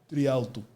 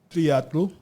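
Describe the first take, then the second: First: The l comes before the t. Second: The t comes before the l. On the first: The speaker calls it wrong. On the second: The speaker calls it right.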